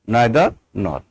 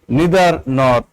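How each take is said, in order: First: It is said with a British pronunciation. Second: It is said with an American pronunciation. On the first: "In British" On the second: "that is American pronunciation"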